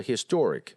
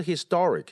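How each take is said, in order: First: "historic" with a rounded "or", his-TOR-ic; correct vowel demo. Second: "historic" with an open "ah", his-TAR-ic; wrong vowel demo. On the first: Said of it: "而是historic". (正确示范：historic读or) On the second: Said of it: "不是historic". (错误示范：historic读成tar) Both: Shown as a demonstration.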